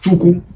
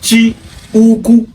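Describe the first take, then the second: First: The parts are run together into one word. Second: It is said as two separate parts. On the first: This is the everyday contracted form. "the way we take the pronounce am as Chukwu" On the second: This is the original full form. "originally pronounced as Chi Uku"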